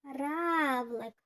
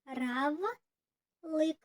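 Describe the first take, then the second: First: "Равлик" with the stress on РАВ; stress on first syllable. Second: "Равлик" said slowly as РА-ВЛИК; split into syllables. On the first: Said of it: "на який склад падає наголос". (наголос на перший склад у слові "Равлик") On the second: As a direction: break "Равлик" into two syllables. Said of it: "Поділіть слово на склади". ("Равлик" по складах, повільно) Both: Shown as a demonstration.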